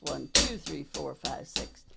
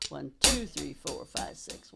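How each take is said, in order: First: "two" and "five" lifted, the rest dropping to near silence; accent on two. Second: The counts "two" and "five" leaned on over quiet others; accent on two. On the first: Drum teacher repeating the accent count for a student, quiet and even. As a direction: count it soft, leaning on the second beat. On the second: Drum teacher counting accents for a student, hushed and steady. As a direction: drummer counting the second partial out, barely above a breath. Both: Shown as a demonstration. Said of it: "We put the accent on the second partial".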